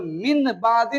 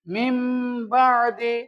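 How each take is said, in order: First: The first word ends with an 'n' sound. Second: The first word ends with an 'm' sound. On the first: The speaker calls it wrong. "अब इसको मिन बादी नहीं पढ़ेंगे" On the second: The speaker calls it right. "बल्कि अब इसको मिम बादी"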